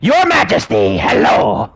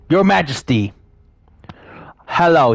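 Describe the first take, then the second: First: It is said in an exaggerated, overacted voice. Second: It is said plainly, without exaggeration.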